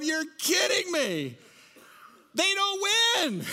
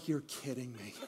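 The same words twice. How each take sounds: First: Much higher, slow, whining "You're kidding me"; whiny disbelief. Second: Very quiet, sunken "You're kidding me"; deflated disbelief. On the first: Lions draftee complaining to the room, high slow whine. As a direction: stretch it out in a high, pleading whine. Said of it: "sitting there going". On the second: Draftee picked by the Lions, quiet deflated disbelief. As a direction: let it drop out of you, barely audible. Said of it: "he's going". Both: Retold or imitated.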